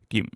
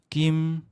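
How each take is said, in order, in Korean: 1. 음이 콕 짚듯이 끊어져요. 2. 음이 아무 변화 없이 그대로예요. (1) "콕 짚어주는 성조" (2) "첫째 성조가 아무것도 없는 성조예요"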